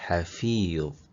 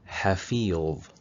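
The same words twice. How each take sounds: No difference in how they are said.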